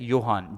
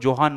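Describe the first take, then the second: First: The name begins with a Y sound. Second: The name begins with a J sound. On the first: The speaker calls it right. "इसका प्रोनाउंसिएशन क्या है? योहान।" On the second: The speaker calls it wrong. "जे को जोहान मत बोलो"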